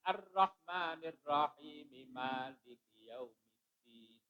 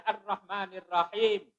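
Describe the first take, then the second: First: Soft chant, "Rahim" linked straight into "Maliki"; continued reading. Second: Higher, brisk "Ar-Rahmanir Rahim" closed on the m; stopped verse ending. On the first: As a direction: run "Rahim" on into "Maliki" as "rahimi", fading on "Yaumiddin". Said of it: "Tapi kalau diteruskan". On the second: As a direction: end "Rahim" firmly on a closed m. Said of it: "kan kalau dibaca". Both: Shown as a demonstration.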